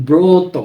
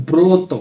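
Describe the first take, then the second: No difference in how they are said.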